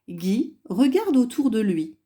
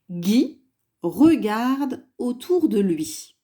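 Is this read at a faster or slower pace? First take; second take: faster; slower. First: It is read at a faster pace. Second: It is read at a slower pace.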